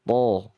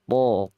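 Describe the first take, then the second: No difference in how they are said.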